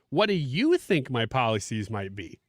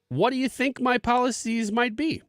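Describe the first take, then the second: First: It is read with a word given marked emphasis. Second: It is read with plain, neutral emphasis.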